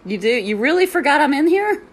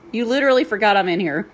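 First: High, loud disbelieving question; rising, loud, can't-believe-it challenge; incredulous retort. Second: Fast, laughing flat statement of disbelief; laughing exasperation. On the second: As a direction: rattle it off, amused and fed up. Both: Retold or imitated. Retold reply to noisy peer.

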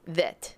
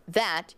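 First: "that" with the vowel nearer an E; accented "that", closer E vowel; vowel shifted toward E. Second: Said in the usual way. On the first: Shown as a demonstration. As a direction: say "that" almost like "thet". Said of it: "say it more like an E". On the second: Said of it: "Instead of going that".

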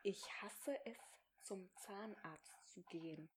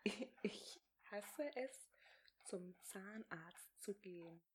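First: Soft mouthing. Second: Slow, voiceless whisper, word by word. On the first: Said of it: "mouthed for lip-reading". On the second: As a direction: whisper it slowly and clearly for lip-reading. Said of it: "Nochmal, was?". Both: Shown as a demonstration.

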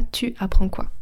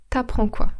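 First: Said in the usual way. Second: „T'apprends” as one word, u dropped; wymowa potoczna. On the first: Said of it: "Et pas tu apprends quoi". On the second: Shown as a demonstration. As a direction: run t straight into „apprends”. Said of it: "à l'oral, on dit".

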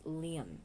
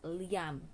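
First: Liam said the proper English way, LEE-um; correct pronunciation. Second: Liam said the mistaken way; wrong pronunciation. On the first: Vlogger correcting listeners on Liam, correct pronunciation. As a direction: model Liam clearly as LEE-um. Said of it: "it's Liam". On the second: Vlogger showing how not to say Liam, mispronounced. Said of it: "not Liam". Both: Shown as a demonstration.

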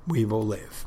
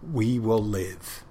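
First: Said in the usual way. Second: We will live, drawn out slowly with weight on will; slow defiant vow. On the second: Retold or imitated. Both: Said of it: "he didn't say it like that".

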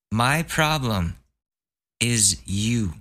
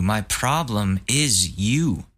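First: "My" pitched up, slow; stress on My. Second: Slow, "you" landed with a fall; stress on you. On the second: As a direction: drag it out and hit "you". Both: Shown as a demonstration.

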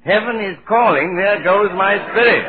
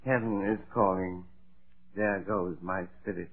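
First: Higher and much louder insistent call; loud repeated cue. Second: Softer, faint dying whisper-like delivery; feeble deathbed line. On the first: Topper shouting his cue for the late spirit, loud. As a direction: bellow the cue so the spirit hears. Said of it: "why do you repeat that". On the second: Faking death, Topper murmurs his cue faintly. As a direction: let the cue fade out weakly. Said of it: "all you have to do is say". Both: Pretend.

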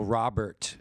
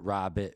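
First: Said in the usual way. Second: "Robert" said as "Rabbit", no second R; "Robert" squeezed into "Robbit"; local R-less pronunciation. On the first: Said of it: "Robert has a T". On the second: Shown as a demonstration. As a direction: drop the R in "Robert" and end on a crisp T. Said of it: "turning D's at the end of names into T's".

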